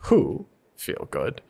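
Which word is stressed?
I. The stress is on the first word.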